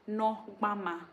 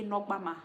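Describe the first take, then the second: First: "Nogbama" slowly split as no, gba, ma; syllable by syllable. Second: Said in the usual way. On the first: Shown as a demonstration. Teacher showing viewers the word for lips, "Nogbama" syllable by syllable. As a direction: sound out "Nogbama" in three separate syllables. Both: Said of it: "we say nogbama".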